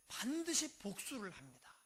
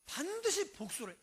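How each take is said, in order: First: Said in the usual way. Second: 반드시 hit higher and harder, falling after; stress on 반드시. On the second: Shown as a demonstration. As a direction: punch the word 반드시 with a lifted pitch. Preacher repeats revenge rule.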